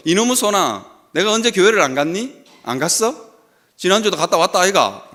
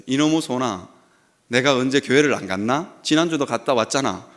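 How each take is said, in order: First: Put-on gruff old Gyeongsang father, raised pitch; 경상도 사투리로 투박하게; Gyeongsang dialect. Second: Said in the usual way. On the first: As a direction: lay on the Gyeongsang accent, 아이가 at the end. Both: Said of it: "경상도 말로".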